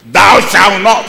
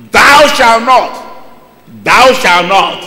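First: Loud stern commandment; commanding shout. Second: Slow shouted commandment, word by word; slow booming law; slow loud command. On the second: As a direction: drag out each word as a stern decree. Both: Acted. Preacher voicing the law's command.

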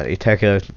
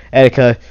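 First: Iteka said with a short I sound at the start, IH-teh-kah; slip of the name. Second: Etika said with an EH sound at the start, EH-dih-kah; corrected name. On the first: Angry vlogger misreads the name Iteka as IH-teh-kah. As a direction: misnames the YouTuber mid-rant before catching it. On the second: Vlogger corrects himself, saying Etika as EH-dih-kah. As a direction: fixes his slip and says it properly. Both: Real, not acted. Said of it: "not Iteka".

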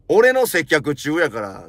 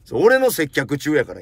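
First: 俺 punched louder, then 俺の接客中やから said slowly; slow, emphatic insistence leaning on 俺; stress on 俺. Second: Said in the usual way. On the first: Shown as a demonstration. Customer insisting the shoe clerk serve him first, slowly stressing 俺.

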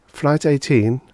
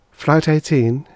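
First: Lightly blank, raised repeat; blank robot voice. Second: Lightly blank, raised stewardess; blank robot voice. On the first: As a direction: echo it emptily, mechanical. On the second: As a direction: say it emptily, like a machine. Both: Acted. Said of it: "she said blankly".

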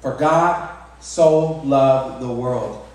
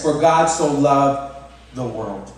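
First: Even slower, falling on "God"; preacher's meditative repeat; slower reverent repeat. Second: Very slow, weighty "For God so loved the world"; solemn slow quote; slow scripture reading. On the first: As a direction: let each word of "For God so loved the world" land. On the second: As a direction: read the verse word by word, leaning on "God". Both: Shown as a demonstration. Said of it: "Think about that".

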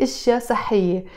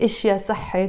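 First: صحية ending in a full -iyye; correct feminine ending. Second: صحي ending on -i, without the -ye syllable; wrong masculine ending. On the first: Teacher giving learners the correct plural phrase, feminine ending. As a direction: sound the final -ye on صحية. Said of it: "I say". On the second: Teacher showing learners what not to say, masculine ending. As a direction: cut the feminine -ye off صحي. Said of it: "I don't say". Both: Shown as a demonstration.

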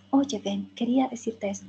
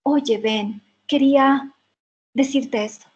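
First: A soft echo of the line at the same rhythm; shadowing softly. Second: The actor's line as the film plays it. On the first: Student repeats the actor's line, softer and at his pace. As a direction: trail right behind the actor, softer. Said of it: "a ese ritmo". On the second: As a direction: deliver it like the actor on screen. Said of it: "Entonces dice". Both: Shown as a demonstration.

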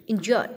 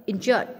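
The two takes are said the same way.

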